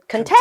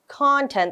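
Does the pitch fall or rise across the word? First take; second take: rise; fall. First: The pitch rises across the word. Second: The pitch falls across the word. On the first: Feeling happy and comfortable. "we're not saying the word content" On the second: Things included in something. "the intonation is going down"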